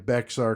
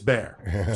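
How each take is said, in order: First: It is said as two syllables with an x sound. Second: It is said as one syllable without an x sound. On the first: The speaker calls it wrong. "I'm pretty sure I kept saying Bexar County" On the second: The speaker calls it right. "but it's Bear"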